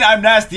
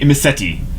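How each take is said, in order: First: The name is said like the phrase 'I'm nasty'. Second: The name is said with four syllables, Imiseti. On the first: The speaker calls it wrong. "I've been saying it wrong this entire time. I've been saying" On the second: The speaker calls it right.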